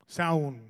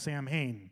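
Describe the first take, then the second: First: The word is said like 'Saun', much shorter. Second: The word is said like 'Sam-hain', spelled out. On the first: This is the Irish way of saying it. The speaker calls it right. "I think it's pronounced Saun" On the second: This is the American way of saying it. The speaker calls it wrong. "Americans call Samhain"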